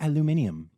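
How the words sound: It is said the Australian way, five syllables. The speaker calls it right. "or as you would say"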